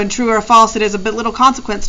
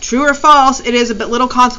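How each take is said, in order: First: It runs on with no pause after "false". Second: There is a pause after "false". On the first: The speaker calls it wrong. "You can't just blow through it" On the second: The speaker calls it right. "you have to read it for punctuation"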